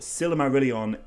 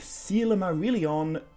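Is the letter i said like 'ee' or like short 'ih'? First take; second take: ih; ee. First: The i vowels sound like a short English i. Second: The i vowels sound like an English ee. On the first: This is how most people say it. The speaker calls it wrong. "definitely the most common pronunciation" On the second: This is closer to the author's intent. The speaker calls it right. "closer, maybe, to what Tolkien had in mind"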